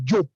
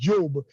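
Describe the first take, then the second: First: The name ends with a voiceless p sound. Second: The name ends with a voiced b sound. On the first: This is the Senegalese Wolof pronunciation. "In Senegal, Job. It sounds like a P" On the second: This is the Gambian Wolof pronunciation. "In Gambia, it's pronounced Job"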